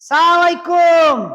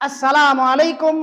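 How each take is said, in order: First: The greeting is clipped and run together quickly. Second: Every syllable of the greeting is said clearly. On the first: It can sound like a curse instead of a blessing. The speaker calls it wrong. "কোনো ঠিক ঠিকানা নেই" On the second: It is a proper blessing of peace. The speaker calls it right. "স্পষ্ট ভাষায়, খুব সুন্দর ভাষায়"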